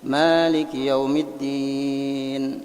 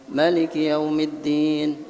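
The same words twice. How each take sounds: First: The first vowel of Maliki is long. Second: The first vowel of Maliki is short. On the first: "Ruwais ini membaca Maliki yaumiddin, panjang memangnya lah" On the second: "Maliki yaumiddinnya tetap dibaca pendek"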